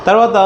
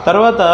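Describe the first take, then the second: No difference in how they are said.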